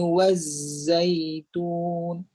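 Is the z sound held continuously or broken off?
held. The z sound is held without a break. The speaker calls it right. "bunyi z tu tidak terputus"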